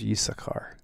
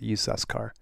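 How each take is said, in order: First: The middle has a k with no s. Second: The middle has an s before the k. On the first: It is the familiar form of the name. "But I always thought it was Yisakar" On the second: It is read as an ordinary word, not a name. "that's how I'd pronounce it"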